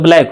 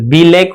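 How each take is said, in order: First: The B blends straight into the L. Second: The B is said as a separate 'bee'. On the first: The speaker calls it right. "इसको ब बोलना है, तब न ब्लैक होगा" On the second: The speaker calls it wrong. "अगर इसको बी बोले तो बी लैक हो जाएगा"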